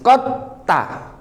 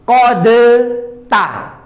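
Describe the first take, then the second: First: The d merges straight into the t. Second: The d is pronounced separately before the t. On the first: "Qadta itu kan langsung masuk ke ta itu" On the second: "kalau seandainya kota bayana kita izharkan, maka makhraj kerja dua kali"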